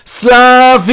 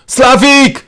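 First: Long, high, drawn-out yell; hysterical shout. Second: High, loud shout for help. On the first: Banging on the door for the carer, hysterical shouting. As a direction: scream the name out, holding it. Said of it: "וצועק בהיסטריה". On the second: Patient shouts toward the corridor for the carer, shouting. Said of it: "אני צועק לעבר המסדרון". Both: A narrator's reading.

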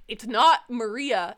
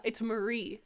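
First: Maria slow and louder, with its final "uh"; Maria pronunciation. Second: Marie softer, ending on "ee"; Marie pronunciation. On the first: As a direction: stress Maria as the rejected version. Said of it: "And I'm like". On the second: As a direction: offer Marie as the correction, two syllables. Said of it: "and they're like". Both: Retold or imitated.

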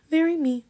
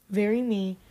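First: "very me" squealed high and loud; excited squeal. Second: Said in the usual way. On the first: Real, not acted. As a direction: gush with delight over the dress. Gushing about her own dress.

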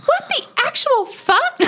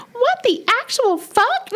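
First: Much higher, shrill mock outburst; imitating a shrill high-pitched yelp; high shrill curse. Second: Much higher, slowed shrill mock outburst; imitating a slow shrill high-pitched yelp; high shrill curse again. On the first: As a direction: squeal it out like a shocked cook. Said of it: "high-pitched, shrill voice". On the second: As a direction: draw out the shocked squeal. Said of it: "some passion behind it".

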